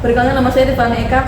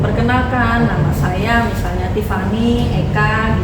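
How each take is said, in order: First: It is rushed out quickly and unclearly. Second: It is said at an ordinary, clear pace. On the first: The speaker wants to finish talking quickly. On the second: The speaker is willing to talk.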